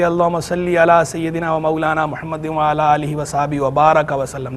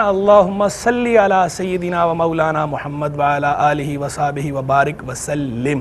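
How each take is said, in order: First: Recited evenly, ending "बारक व सल्लम" with "a" vowels; mismatched durood reading. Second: Recited evenly, ending "बारिक व सल्लिम" with "i" vowels; durood recitation. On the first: Scholar showing a disallowed reading, recited with "बारक व सल्लम". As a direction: recite the prayer, बारक as "baaraka", सल्लम as "sallam". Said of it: "आप ये नहीं पढ़ सकते". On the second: Scholar showing how durood is read, recited with "बारिक व सल्लिम". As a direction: recite the prayer, बारिक as "baarik", सल्लिम as "sallim". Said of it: "दुरूद शरीफ यूँ पढ़ा जाता है".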